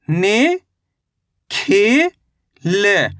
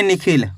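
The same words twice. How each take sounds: First: "नि, खी, ल" as isolated syllables with pauses; अक्षर-दर-अक्षर उच्चारण. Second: Said in the usual way. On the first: Shown as a demonstration. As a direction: sound out "नि", "खी", "ल" one by one, vowels stretched. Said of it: "एक अक्षर का उच्चारण ही तो करना". ("नि, खी, ल" को रुक-रुककर अलग बोलना) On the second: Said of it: "कैसे पढ़ेंगे?".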